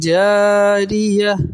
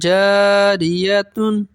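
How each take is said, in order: First: The word ends in an h sound, no n. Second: The word ends with a t and n sound.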